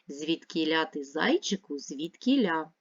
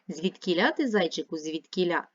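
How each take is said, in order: First: The phrase is read at a normal pace. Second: The phrase is read at a fast pace. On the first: "Давайте разом прочитаємо" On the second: "А тепер давайте швидше"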